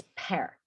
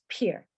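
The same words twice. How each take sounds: First: "pear" with an open eh, like "pair"; correct pronunciation. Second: "pear" said wrongly as "pier"; wrong pronunciation. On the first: Teacher correcting the mistake for students, "pear" pronounced like "pair". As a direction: say "pear" to rhyme with "air". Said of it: "es pear". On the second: Teacher showing students the mistake to avoid, "pear" mispronounced like "pier". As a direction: give "pear" an ee sound, rhyming with "beer". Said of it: "porque no es pear". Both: Shown as a demonstration.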